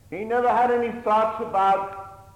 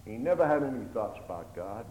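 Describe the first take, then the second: First: A preacher raising his voice for the repeat; loud preaching emphasis. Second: Said in the usual way. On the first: Acted. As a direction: repeat it much higher and louder. Preacher repeats the line louder.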